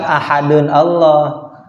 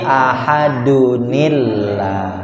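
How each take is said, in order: First: The nun runs into 'Allah' with an 'a' sound. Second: A short 'i' sound links the nun to 'llah'. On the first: The speaker calls it wrong. "Bukan ahadun Allah" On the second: The speaker calls it right. "tapi ahadunillah"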